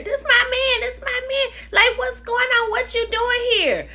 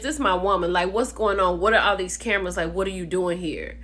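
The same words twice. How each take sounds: First: High-pitched mock protest of a girlfriend; imitating a woman's high, frantic objection; indignant woman. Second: Imitating a man's firm challenge; mock chesty boyfriend standing his ground; lightly voiced man asserting his claim; saying it with chest. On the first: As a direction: squeal it like an outraged girlfriend. Acts out Kiana's protest in quarrel. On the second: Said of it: "saying it with his chest".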